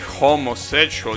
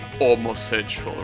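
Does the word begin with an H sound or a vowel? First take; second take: H sound; vowel. First: The word starts with a clear H sound. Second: The word starts directly with a vowel. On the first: The speaker calls it right. "I'm pretty sure you say homosexual" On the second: The speaker calls it wrong. "you don't say homosexual"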